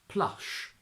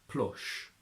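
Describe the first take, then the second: First: It is said with an RP 'ah' vowel. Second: It is said with a Geordie 'oh' vowel. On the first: "from R P" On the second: "to Geordie"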